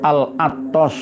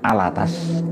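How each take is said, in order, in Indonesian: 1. Suku kata terakhir bervokal 'o'. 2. Suku kata terakhir bervokal 'a'. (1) "Al-Attos tulisannya" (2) "tapi bacanya Al-Attas"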